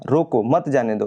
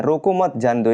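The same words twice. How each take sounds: First: रोको set apart, then मत जाने दो as one phrase; pause after रोको. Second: रोको मत joined, then जाने दो set apart; pause after मत. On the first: Teacher explains first sentence means stop, pausing after रोको. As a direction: split it after रोको, before मत. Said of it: "पहले कामा लग गया है". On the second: Teacher explains the changed meaning, pausing after मत. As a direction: split it after मत, before जाने दो. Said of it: "के बाद कॉमा लगा है". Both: Shown as a demonstration.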